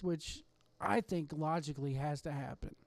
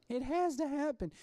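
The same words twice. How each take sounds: First: Said in the usual way. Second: Insistent "has" lifted high, then falling; insisting. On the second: Real, not acted. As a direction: stress on "has", pitched higher and pressed. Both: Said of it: "Come on".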